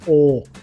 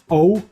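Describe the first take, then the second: First: The vowel's ending is squeezed off. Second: The vowel is fully open throughout. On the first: "the end of the pronunciation of the letter is squeezed off a bit" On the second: "it is usually a very open letter, just O"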